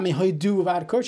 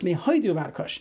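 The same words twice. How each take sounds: First: Hodu is said like the word for thanks. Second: Hodu is said like the name for India. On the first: The word reads as giving thanks. The speaker calls it wrong. "It's not" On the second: The word names the country India. The speaker calls it right.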